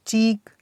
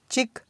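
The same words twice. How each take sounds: First: चीक with a long, held ee; long vowel. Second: चिक with a short i; short vowel. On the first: Teacher drilling word pairs for students, long vowel. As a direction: draw out the ee in चीक. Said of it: "इसका sound long है". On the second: Teacher drilling word pairs for students, short vowel. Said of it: "short sound है". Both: Shown as a demonstration.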